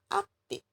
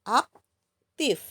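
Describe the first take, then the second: First: The word ends with a p sound. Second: The word ends with an f sound. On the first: The speaker calls it wrong. "Kalau kalian menggunakan P bukan F, aktif itu tidak baku" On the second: The speaker calls it right. "Yang baku adalah aktif"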